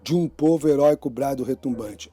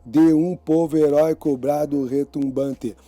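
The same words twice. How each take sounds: First: "de um" merged as "djum", "povo heróico" linked in one flow; poetic elision. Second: Every syllable of "de um povo heróico, brado retumbante" kept apart; grammatical syllables. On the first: Teacher scanning an anthem verse for students, syllables elided. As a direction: run the vowels of "de um povo heróico" together. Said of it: "vai de novo dar dez sílabas poéticas".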